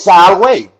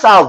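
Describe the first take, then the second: First: The middle consonant is a W sound. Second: The middle consonant is a V sound. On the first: The speaker calls it right. "There's no V sound" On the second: The speaker calls it wrong. "It's not salve"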